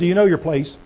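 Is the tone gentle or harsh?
gentle. The question is asked in a gentle, loving tone. It is a caring question. "Can I say this with all love in my heart?"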